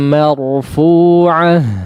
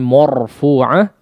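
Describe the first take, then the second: First: The m and its vowel sound thin and light. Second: The m and its vowel sound thick and heavy. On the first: The speaker calls it right. "dijaga ketipisannya atau kesempurnaan harakat fathahnya" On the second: The speaker calls it wrong. "jangan sampai marfu'ah ya. Eh, tidak"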